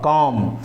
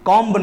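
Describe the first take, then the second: First: The final b sound is silent. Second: The final b sound is pronounced. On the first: The speaker calls it right. "बी silent होगा" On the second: The speaker calls it wrong. "कॉम्ब नहीं होगा"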